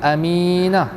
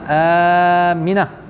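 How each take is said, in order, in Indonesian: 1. Vokal kedua panjang. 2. Vokal pertama panjang. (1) "bukan mim tu panjang. Aminah, tak" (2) "Tapi sebutan yang tepatnya Aminah. A tu panjang"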